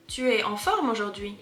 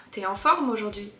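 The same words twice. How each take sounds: First: Tu es en forme aujourd'hui with tu and es said as two full separate syllables. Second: T'es en forme aujourd'hui with tu es merged into one quick syllable t'es; contracted t'es. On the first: Teacher showing the careful form learners expect. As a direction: spell out tu es in full, word by word. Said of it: "No, we don't say that". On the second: Teacher showing how the French really say it. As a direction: glide tu es into a single t'es. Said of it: "we would say t'es". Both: Shown as a demonstration.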